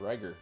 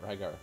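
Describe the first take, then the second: First: The name is said to rhyme with liger. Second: The name is said not rhyming with liger. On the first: "his name's actually just spelled just like a regular Liger" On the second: "I always said Rygar"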